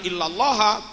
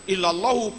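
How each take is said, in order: First: The word ends with the case vowel 'a'. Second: The word ends with the case vowel 'u'. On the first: It follows the usual exception rule. "Yang harusnya illallah" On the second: The word means 'other than' rather than 'except'. "Quran tetap baca illallahu"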